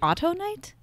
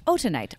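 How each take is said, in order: First: The word begins with an 'auto' sound. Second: The word begins with a plain 'oh' sound. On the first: The speaker calls it wrong. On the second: The speaker calls it right.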